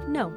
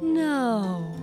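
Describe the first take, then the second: First: It is light, quick and direct. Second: It is light, slow and drifting.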